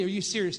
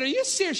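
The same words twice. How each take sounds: First: Said in the usual way. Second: Retold disbelief. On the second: Retells his own shocked reply.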